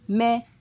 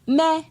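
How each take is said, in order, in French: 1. Il est prononcé sur un ton moyen. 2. Il est prononcé sur un ton haut. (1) "Ton moyen" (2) "Ton haut"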